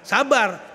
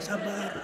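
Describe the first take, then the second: First: It is said in a harsh tone. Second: It is said in a gentle tone.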